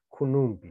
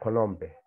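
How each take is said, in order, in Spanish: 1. Las dos primeras vocales son ambas u. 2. Las dos primeras vocales son ambas o. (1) "acá ni uno cambia" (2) "o konompe"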